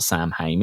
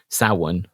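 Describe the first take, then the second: First: It is said as spelled, 'Sam Hain'. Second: It is said the traditional way, not as spelled. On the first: The speaker calls it wrong. "It's not Sam Hain, is it?" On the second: The speaker calls it right. "which is the proper pronunciation"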